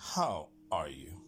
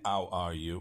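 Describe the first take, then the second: First: The h in how is aspirated. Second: The h in how is not aspirated. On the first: The speaker calls it right. "L'H spesso è aspirata in lingua inglese, quindi non è how are you, ma è how are you" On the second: The speaker calls it wrong. "non è how are you"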